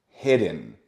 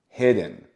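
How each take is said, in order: The two takes are said the same way.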